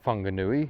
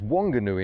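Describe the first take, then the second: First: The name starts with an F sound. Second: The name starts with a W sound. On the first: The speaker calls it wrong. "the F thing doesn't seem to work down here" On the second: The speaker calls it right. "So it turns out it's Wanganui"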